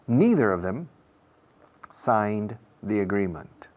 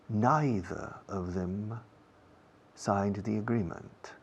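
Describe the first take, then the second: First: Neither is pronounced in a non-British way. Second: Neither is pronounced in a British way.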